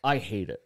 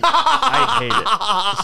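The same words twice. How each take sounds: First: Said in the usual way. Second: High, loud and slow through laughter; laughing out the complaint. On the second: Real, not acted. Repeats line, laughing second time.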